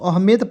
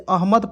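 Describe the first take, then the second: First: The second vowel sounds like 'e'. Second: The second vowel sounds like 'a'. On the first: The speaker calls it wrong. "अहमेद पढ़ेंगे नहीं" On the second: The speaker calls it right. "इसे अहमद पढ़ते हैं"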